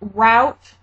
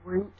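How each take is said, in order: First: The word does not rhyme with 'boot'. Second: The word rhymes with 'boot'. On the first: "I say it like that sometimes" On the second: "other times I say root"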